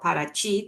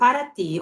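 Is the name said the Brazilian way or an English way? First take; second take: Brazilian; English. First: It is said with a Brazilian Portuguese pronunciation. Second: It is said with an English-style pronunciation.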